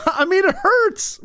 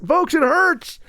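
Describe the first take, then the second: First: Laughing through the words, pitch up. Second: Said in the usual way. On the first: Real, not acted. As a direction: chuckle while admitting it hurts. Laughing at own cringe memory.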